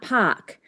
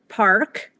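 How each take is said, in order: First: The R sound after the vowel is dropped. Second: The R sound after the vowel is pronounced. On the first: This is how later Southern British English said it. "and not park" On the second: This is how early Southern British English said it. "where it would have been an R"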